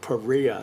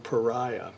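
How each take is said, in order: First: The name is not said like 'pariah'. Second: The name is said like the word 'pariah'. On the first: This is how the company says its name. "the way that they pronounce that term" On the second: This is not how the company says its name. "rather than pariah"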